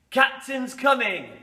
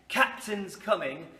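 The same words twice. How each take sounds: First: Calling out. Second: Said in the usual way. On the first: Shown as a demonstration. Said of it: "we'll have a little practice". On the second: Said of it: "if you ever hear me say".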